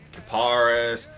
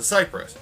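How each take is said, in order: First: It does not sound like the tree name. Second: It sounds like the tree name cypress. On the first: This is one of the other ways people say it. "I've heard a lot of other ways though" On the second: This is the way fans call official. "Here's the official way to say it, ... It's called the Cypress, like the tree"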